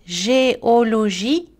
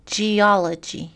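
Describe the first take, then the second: First: "Géologie" slow, each syllable equal; French "Géologie", full vowels, rising end; French even syllables. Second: "geology" slowly in English, stress on OL; slow English "geology", one strong syllable; English word stress. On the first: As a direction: say "Gé-o-lo-gie" evenly in French. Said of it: "Les exemples en français". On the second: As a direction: say ge-OL-ogy with reduced endings. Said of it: "en anglais dans la colonne de droite". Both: Shown as a demonstration.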